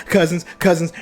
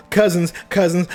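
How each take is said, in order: Both takes have the same delivery.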